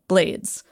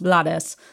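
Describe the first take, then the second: First: The name is said with an English pronunciation. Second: The name is said with a non-English pronunciation. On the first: The speaker calls it right. "it's actually pronounced the English way" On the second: The speaker calls it wrong. "commonly pronounced Blades"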